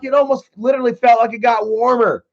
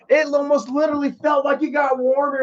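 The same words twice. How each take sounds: First: Said in the usual way. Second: Emphatic repeat. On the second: Real, not acted. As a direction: hammer the line home in disbelief.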